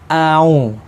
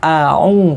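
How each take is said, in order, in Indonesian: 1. Kedua vokal menyatu tanpa jeda. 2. Kedua vokal dipisahkan oleh hentian tenggorokan. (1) "Kalau au itu kan sambung" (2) "Jadi harus terpisah seperti ini"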